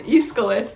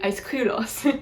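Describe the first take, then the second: First: The name is given its usual English pronunciation. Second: The name is given its original ancient Greek pronunciation. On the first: "how are you supposed to know that that says Aeschylus?" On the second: "It's actually Aeschylos, but that's really, really difficult for an English speaker to say"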